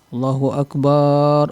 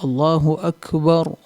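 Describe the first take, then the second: First: The last vowel of Akbar is drawn out long. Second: The last vowel of Akbar is kept short. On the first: The speaker calls it wrong. "memanjangkan akbar ... salah" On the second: The speaker calls it right. "yang benar adalah ... bukan dipanjangkan"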